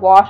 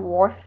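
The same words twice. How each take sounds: First: It is said with no R sound. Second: It is said with an added R sound. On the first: "instead of saying wash" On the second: "I'll put R's in words that shouldn't have R's"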